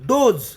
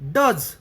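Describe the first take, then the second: First: The vowel is a long oh sound. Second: The vowel is a short uh sound. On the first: It means female deer. "डोज असा जर केला तर याचा याचा अर्थ होईल मादी हरणे" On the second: It means the verb 'does'. "याचा जर उच्चार डज असा केला तर अर्थ होतो करतो"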